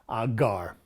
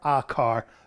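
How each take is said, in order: First: The noun begins with a g sound. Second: The noun begins with a hard c sound. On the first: The car belongs to several people. "their car" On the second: The car belongs to a woman. "her car"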